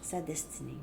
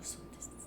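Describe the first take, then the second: First: Said in the usual way. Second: Son destinée whispered as the wrong form; wrong gender. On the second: Shown as a demonstration. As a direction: breathe son destinée as the rejected version. (son destinée chuchoté comme la mauvaise forme) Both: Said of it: "pas son destinée".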